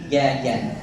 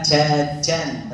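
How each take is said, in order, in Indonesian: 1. Bunyi j dibuat dengan lidah di belakang. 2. Bunyi j dibuat dengan lidah di depan. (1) "Mundur ... tapi jajan" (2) "Jangan tengah lidah maju sedikit ... bukan jajan"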